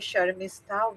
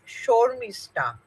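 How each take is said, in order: First: The first vowel is an open 'ah' sound. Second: The first vowel is a rounded 'o' sound. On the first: This is the non-Bengali way of saying the name. "in Bangla, we don't say ah" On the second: This is the Bengali way of saying the name. "it all becomes O"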